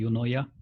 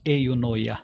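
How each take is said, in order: First: It is pronounced in a simpler, anglicized way. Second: It is pronounced in a Greek-influenced way. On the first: "stick to simpler pronunciation and say eunoia" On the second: "because it has a Greek background, call that as eunoia"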